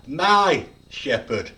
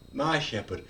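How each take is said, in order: First: "My" loud, long and set apart; stress on MY. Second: Said in the usual way. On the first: Shown as a demonstration. Preacher claiming the shepherd as his own, stress on "My". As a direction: punch "My" slowly, let "shepherd" fall. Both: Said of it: "You could emphasize every word".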